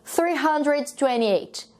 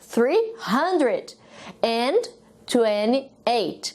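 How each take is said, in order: First: The word 'and' is dropped in quick speech. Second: The word 'and' is clearly pronounced. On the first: "sem o e" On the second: "Agora nas centenas o e aparece"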